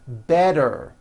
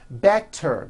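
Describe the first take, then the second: First: The middle consonant is a voiced D sound. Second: The middle consonant is a clear T sound.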